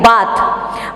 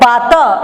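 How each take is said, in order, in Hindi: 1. शब्द अंतिम व्यंजन पर ही खत्म होता है। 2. अंतिम व्यंजन के बाद एक छोटा स्वर बोला जाता है। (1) "इसको हम कहेंगे बात" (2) "ये बात नहीं पढ़ सकते हम"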